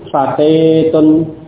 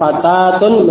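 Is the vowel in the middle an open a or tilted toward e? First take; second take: tilted e; open a. First: The middle vowel is tilted toward e. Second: The middle vowel is an open a.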